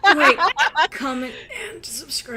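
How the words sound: It is said in a put-on character voice.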